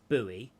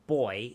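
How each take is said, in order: First: It is said as two syllables, sounding the u. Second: It is said as one syllable, like boy. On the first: This is how Americans say it. "In America, it's buoy" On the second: This is how Australians say it. "in Australia, it's boy"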